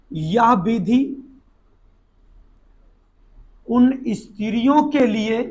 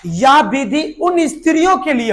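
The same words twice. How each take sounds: First: Measured note-taking delivery, phrase by phrase; dictation. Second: Said in the usual way. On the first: Shown as a demonstration. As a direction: dictate "या विधि" then "उन स्त्रियों के लिए", long pause between. Repeats it piecemeal for note-taking.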